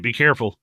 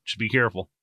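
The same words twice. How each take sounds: First: Said in the usual way. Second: Just be careful, said softer and lower; softer warning. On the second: Retold or imitated. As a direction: drop the voice for a gentle warning. Advice to aging fighter.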